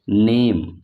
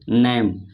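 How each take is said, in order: First: The word is said slowly and carefully. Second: The word is said quickly and hurriedly. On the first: The speaker calls it right. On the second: The speaker calls it wrong.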